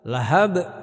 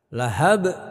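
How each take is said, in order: The two takes are said the same way.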